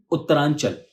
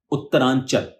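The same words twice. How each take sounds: The two takes are said the same way.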